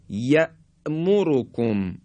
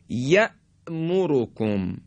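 The two takes are said the same way.

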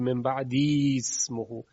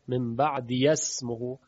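First: A long i vowel is kept after 'ba'd'. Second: A 'ya' syllable is said before 'smihi'. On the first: "اینجا خلاف قاعده است چون یا امدیه و این گونه تلفظ برای عرب مشکله" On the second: "به یا حرکت فتحه میدن تا حذف نشه"

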